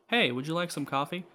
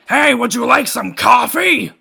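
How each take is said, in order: First: The question is asked in a calm voice. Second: The question is yelled loudly.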